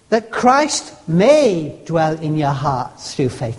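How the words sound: The word may carries the stress. It might not be allowed to happen. "In other words, I might not let him"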